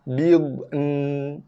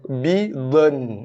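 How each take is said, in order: First: The d and n sounds are kept apart. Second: The d and n sounds run together. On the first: The speaker calls it right. "Selesaikan satu-satu makhraj" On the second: The speaker calls it wrong. "Dad dengan nun combine sekali"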